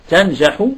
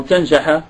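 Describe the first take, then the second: First: تنجح said tanjahu, final u; تنجح with damma ending, tanjahu; تنجح closing on a rounded u. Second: تنجح said tanjaha, final a; تنجح with fatha ending, tanjaha; تنجح closing on an open a. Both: Shown as a demonstration. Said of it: "بالفتح أم بالضم؟".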